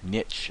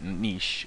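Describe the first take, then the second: First: The word is said in an American way. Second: The word is said in a non-American way.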